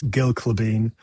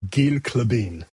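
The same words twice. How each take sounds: First: "Gil Klabin" as gill kluh-BEEN; short i in "Gil", end-stressed "Klabin"; everyday pronunciation. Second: "Gil Klabin" as geel kluh-BEEN; long ee in "Gil", end-stressed "Klabin"; technically correct pronunciation. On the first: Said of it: "absolutely nobody's gonna say that". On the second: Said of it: "It is technically". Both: Shown as a demonstration.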